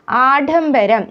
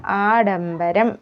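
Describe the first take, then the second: First: ആഡംബരം with a puffed ഢ for ഡ; wrong consonant. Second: ആഡംബരം with a simple unpuffed ഡ; correct consonant. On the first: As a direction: show the mistaken heavy ഢ in ആഡംബരം. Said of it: "എന്നല്ല". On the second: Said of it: "ആഡംബരം എന്നാണ്". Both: Shown as a demonstration.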